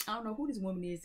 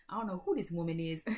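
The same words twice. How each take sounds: First: A hammed-up puzzled dreamer; higher mock musing. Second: Said in the usual way. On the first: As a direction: repeat it pitched well up, playfully baffled. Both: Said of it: "you watching this and you like".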